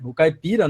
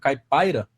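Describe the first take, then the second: First: The second syllable has an 'ee' vowel. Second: The second syllable has an 'eye' vowel. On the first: "O caipira, né?" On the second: "Ou caipaira, não sei como que o pessoal tá é, pronunciando"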